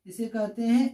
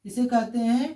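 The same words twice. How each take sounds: The two takes are said the same way.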